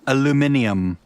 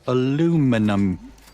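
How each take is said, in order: First: It is said in a British way. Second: It is said in an American way.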